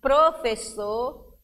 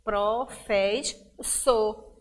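First: Said in the usual way. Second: "professor" very slowly as pro-fes-sor; three spaced beats on "professor"; syllable by syllable. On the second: Shown as a demonstration. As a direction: split "professor" between the two S's. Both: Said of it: "o S fica em sílabas diferentes".

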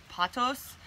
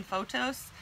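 First: "patos" with an open first vowel, PAH-tohs; common pronunciation. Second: "photos" with a long OH first, FOH-tohs; own pronunciation. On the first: Telling viewers how most people say it, "patos" as PAH-tohs. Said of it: "most people pronounce it patos". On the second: Owning up to viewers about a habitual mispronunciation, "photos" as FOH-tohs. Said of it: "I'm always saying photos". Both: Shown as a demonstration.

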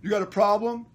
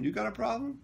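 First: Loud, raised challenge; louder, higher mock tough-guy demand; imitated confrontation. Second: High, rising question at normal volume; retold comeback. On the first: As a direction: play the guy picking a fight. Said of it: "he comes over to me. He's like". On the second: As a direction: throw the challenge back without shouting. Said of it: "I said".

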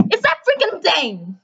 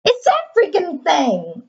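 First: Said in the usual way. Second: Drawn-out "It's that freaking thing", slow with "that" leaned on; slower exasperated. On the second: Real, not acted. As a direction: drag it out in disbelief. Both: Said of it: "repeats the line differently".

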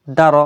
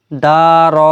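First: দা র said short and joined; quick, unstretched. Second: দা and র each stretched long; wrongly drawn out. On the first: Teacher models the right reading, quick short syllables. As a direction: cut both দা and র short. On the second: Teacher shows what is not allowed, drawn-out syllables. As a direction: drag out both vowels in দা র. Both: Shown as a demonstration. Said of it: "এরকম পড়া যাবে না".

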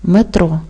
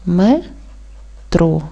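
First: Said in the usual way. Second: "Метро" split into "Ме", long pause, "тро"; syllable by syllable. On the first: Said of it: "Правильно поділити на склади". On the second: Shown as a demonstration. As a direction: say "Ме", stop, then "тро". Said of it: "Правильно поділити на склади буде так". («Метро» по складах: ме — тро)

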